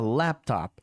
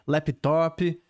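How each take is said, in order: First: It is said with an English accent. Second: It is said with a Brazilian Portuguese accent. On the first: The speaker calls it right. "procura a pronúncia em inglês" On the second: The speaker calls it wrong. "Com o nosso sotaque"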